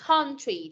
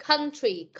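First: Country said as "KON-tree", with a rounder open vowel. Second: Country said as "KUN-tree", with a short central vowel. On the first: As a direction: model country with an "on" sound. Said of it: "Âm on hoặc là âm ân". (đọc country với âm "on", như "con-tri") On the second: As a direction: model country with an "ân" sound. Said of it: "hoặc là âm ân". (đọc country với âm "ân", như "khân-tri") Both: Shown as a demonstration.

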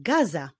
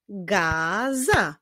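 First: Said in the usual way. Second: "gaza" as a long ga, then za; syllable by syllable. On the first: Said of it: "czyli gaza". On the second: Shown as a demonstration. Teacher solving a word riddle, "gaza" built up by syllable. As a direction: sound out "gaza" in two separate syllables. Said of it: "pierwszą sylabą jest sylaba ga".

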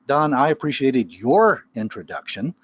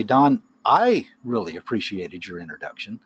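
First: Your stressed with a pointed rise. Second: I stressed, rising. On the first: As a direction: hit the word your to throw shade. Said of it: "I'm throwing shade on Tim". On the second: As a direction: lean on the word I to single yourself out. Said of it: "I would be inferring that some other people". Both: Shown as a demonstration.

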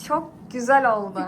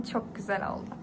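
First: "Çok güzel oldu" said out loud; louder. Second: "Çok güzel oldu" whispered, unvoiced. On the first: Same praise repeated louder. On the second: Showing off the finished hair. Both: Real, not acted.

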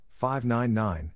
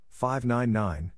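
No difference in how they are said.

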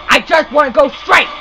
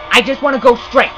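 First: Pleading, exasperated insistence; insistent frustration. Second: Said in the usual way. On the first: Real, not acted. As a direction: insist on it as patience runs out. Repeats complaint more insistently.

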